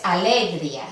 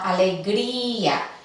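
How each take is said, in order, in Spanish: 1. La i y la a finales forman una sílaba. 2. La i y la a finales forman dos sílabas. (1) "No es alegría" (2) "separar estas vocales, romper el diptongo"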